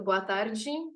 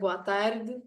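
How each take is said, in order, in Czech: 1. Je to řečeno s brazilským portugalským přízvukem. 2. Je to řečeno s evropským portugalským přízvukem. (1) "po brazilsky je to"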